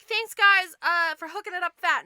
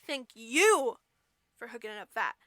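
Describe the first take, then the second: First: Chirpy thanks. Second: Measured thanks. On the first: Girl thanking the little men, chirpy and casual. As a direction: thank them brightly and breezily. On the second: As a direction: lean on YOU, then ease down. Little men answer the girl. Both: Acted.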